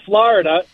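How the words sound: It is said the East Coast way. The speaker calls it right. "out east we call Florida"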